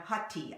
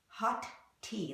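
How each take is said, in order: First: The two T sounds merge into one. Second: Both T sounds are pronounced separately. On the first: The speaker calls it right. "we just make it into one T sound" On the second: The speaker calls it wrong. "that's awkward"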